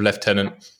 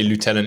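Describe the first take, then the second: First: The word has a British pronunciation. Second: The word has an American pronunciation.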